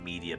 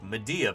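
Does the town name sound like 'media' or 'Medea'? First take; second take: media; Medea. First: It sounds like the common word media. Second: It sounds like the name Medea. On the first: The speaker calls it wrong. "It's probably not Media" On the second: The speaker calls it right. "It's like Medea"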